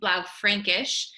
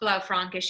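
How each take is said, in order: First: The middle vowel is an umlaut 'eh' sound. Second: The middle vowel is a plain 'ah' sound. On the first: The speaker calls it right. "It is actually Blaufränkisch. And um, that is because of the umlaut" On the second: The speaker calls it wrong. "It is not Blaufränkisch, even though you think that's how it's supposed to sound"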